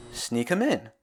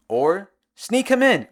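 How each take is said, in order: First: Said in the usual way. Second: Drawn-out, higher "sneak him in"; deadpan slow mock repeat; slow sarcastic. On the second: Shown as a demonstration. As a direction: stretch it out mockingly.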